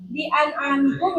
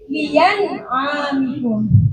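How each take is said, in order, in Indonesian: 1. Hamzah diucapkan sebagai glottal stop yang jelas. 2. Hamzah digantikan dengan bunyi y yang jelas. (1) "yang asalnya" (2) "ibdal ... secara jelas menjadi ya"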